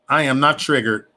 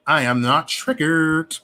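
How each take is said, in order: First: Said in the usual way. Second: Slow, stretching "triggered"; slow, deliberate insistence; emphatic denial. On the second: Real, not acted. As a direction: draw out "I am not triggered". Repeats denial slowly.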